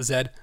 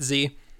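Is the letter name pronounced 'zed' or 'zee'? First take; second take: zed; zee. First: The letter is pronounced 'zed', British style. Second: The letter is pronounced 'zee', American style. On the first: "Most other English-speaking countries call it Z" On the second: "we are in the US, one of the few countries that pronounces it Z"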